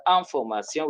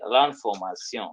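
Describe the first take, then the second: First: "information" with nasal first vowel; French pronunciation without article. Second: "l'information" starting with nasal "lan-"; fuse L to the nasal vowel of "l'information"; French elision. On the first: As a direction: say bare "information" in French, ending "-syon". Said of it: "If it is". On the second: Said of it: "we say". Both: Shown as a demonstration.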